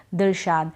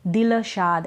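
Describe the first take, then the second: Both takes have the same delivery.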